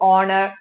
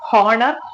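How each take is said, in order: First: The word begins with a vowel sound. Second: The word begins with an h sound. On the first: The speaker calls it right. "அந்த h வந்துட்டு சைலண்டா இருக்கும்" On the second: The speaker calls it wrong. "ஹானர் ஹானரபிள் கிடையாது"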